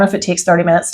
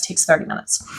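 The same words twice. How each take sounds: First: Said in the usual way. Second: Soft whisper. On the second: Real, not acted. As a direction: trail off into a whisper. Repeated phrase, second take whispered.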